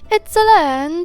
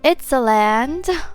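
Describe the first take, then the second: First: It is said in a put-on cartoon character voice. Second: It is said in the speaker's normal voice.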